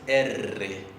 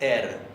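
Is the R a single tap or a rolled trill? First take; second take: rolled trill; single tap. First: The R is a rolled, repeated trill. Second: The R is a single quick tap. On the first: "la vibrante múltiple es" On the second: "La vibrante simple es"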